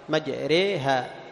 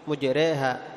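First: The first syllable has an a vowel. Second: The first syllable has a u vowel. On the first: This is another reading tradition. "يفتح الميم مع إمالة كسرة الراء" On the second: This is one reading tradition. "هم يقرؤون بضم الميم"

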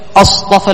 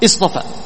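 First: It begins with the question hamza, as a question. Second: It begins with the connecting hamza, as a statement. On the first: Something is being asked about. "اذا دخلنا عليه همزة استفهام فاننا ايش؟ نسقط همزة الوصل" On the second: Something is being reported as fact. "هذا خبري، اخبار"

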